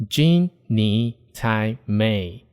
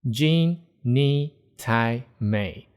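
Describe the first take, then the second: The two takes are said the same way.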